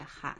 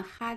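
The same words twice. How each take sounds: First: 哈 in a low dipping tone, hǎ; solid third tone. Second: 哈 in a high level tone, hā; 哈 as hā, not dipping hǎ; light first tone. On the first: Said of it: "听起来敦厚憨厚一些". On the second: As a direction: say 哈 as a high, even hā. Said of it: "听起来轻快可爱一些". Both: Shown as a demonstration.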